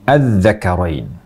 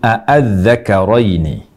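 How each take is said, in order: First: The opening vowel is a single short 'a'. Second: The opening glottal-stop vowel is pronounced twice. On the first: "A-nya ini dibaca pendek" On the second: "Hamzah diulang dua kali. A-a"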